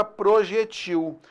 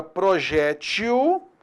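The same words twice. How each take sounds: First: Projetil stressed at the end, pro-je-TIL, closed e; stress on the last syllable. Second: Projétil stressed on the open jé, pro-JÉ-til. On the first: Teacher contrasting the two readings of projetil. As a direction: read projetil as an oxytone ending on til. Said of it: "e existe a palavra". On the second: Teacher contrasting the two readings of projétil. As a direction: read projétil as a paroxytone with an open é. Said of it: "existe a palavra". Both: Shown as a demonstration.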